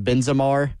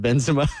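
First: It ends with an added R, British-announcer style. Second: It ends plainly, with no added R.

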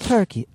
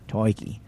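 First: It is said with an Irish accent. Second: It is said with an Australian accent.

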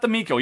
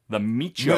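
First: The middle consonant is a hard k sound. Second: The middle consonant is a ch sound. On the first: The speaker calls it wrong. "apparently it's not the Miko" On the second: The speaker calls it right. "It's supposed to be the Micho"

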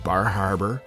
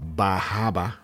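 First: It is said in a general American accent. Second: It is said in a Maine accent, dropping the r's.

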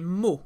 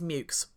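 First: It ends in a vowel sound, French style. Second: It ends in a k-s sound, English style. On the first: "if you're pronouncing it French, you would say mou" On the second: "the way that they pronounced it back then, which really annoys me, is mukes"

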